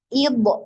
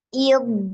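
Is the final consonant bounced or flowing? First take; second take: bounced; flowing. First: The final consonant is released with a bounce. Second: The final consonant sound flows on continuously. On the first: The speaker calls it wrong. "ada yang memantulkan ... nggak boleh seperti itu" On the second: The speaker calls it right. "dia harus dialirkan suaranya"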